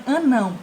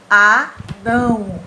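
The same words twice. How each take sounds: First: Said in the usual way. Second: ANÃO devagar e forte, ÃO pelo nariz; som nasalizado. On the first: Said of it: "Fechem o nariz e falem". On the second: Shown as a demonstration. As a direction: separar "Anão" em A e NÃO, bem nasal. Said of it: "Sentem que sai pelo nariz". ("Anão" silabado, com final nasal prolongado)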